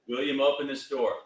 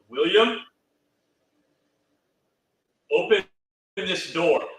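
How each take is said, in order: First: There is a short pause after the name. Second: There is a longer pause after the name.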